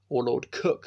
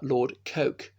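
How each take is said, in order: First: The name's vowel sounds like the one in 'book'. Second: The name's vowel sounds like the one in 'joke'.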